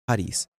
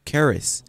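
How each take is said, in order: First: Charis said with a breathy H, HAH-ris; charis, breathy H sound, not a K; Greek pronunciation. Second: Charis said with a hard K, KAH-ris; English reading of charis, K sound first; English-style charis. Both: Shown as a demonstration. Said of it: "The proper current pronunciation in the Greek is charis".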